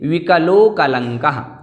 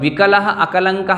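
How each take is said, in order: First: The two words are joined into one flow. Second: The two words are said separately, unjoined. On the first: The speaker calls it right. "इस प्रकार से बोलना है" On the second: The speaker calls it wrong. "ऐसा न बोल करके"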